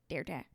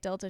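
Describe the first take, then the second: First: It is said in an imitated bird-like voice. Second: It is said in an ordinary speaking voice. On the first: "she goes like Delta" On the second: "instead of saying like Delta"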